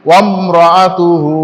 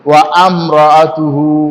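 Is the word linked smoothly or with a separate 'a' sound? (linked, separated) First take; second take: linked; separated. First: Wa runs straight into mratuhu without a break. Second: Wa and amratuhu are said separately with a vowel. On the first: The speaker calls it right. "অথচ এখানে কি আছে" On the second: The speaker calls it wrong. "অনেককে পড়তে শুনেছি"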